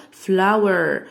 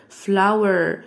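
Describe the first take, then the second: No difference in how they are said.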